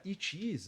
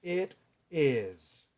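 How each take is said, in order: First: "it is" as Brazilian "itchi ees"; mistaken pronunciation. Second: "it is" as separate "et... ez"; corrected pronunciation. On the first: Teacher quotes what students learned, "it is" as "itchi ees". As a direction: add CHEE to "it is", tense EE vowels. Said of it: "você aprendeu errado". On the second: Teacher shows the correct form, "it is" as "et, ez". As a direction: give "it is" two E vowels, word by word. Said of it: "Essa é a pronúncia correta". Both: Shown as a demonstration.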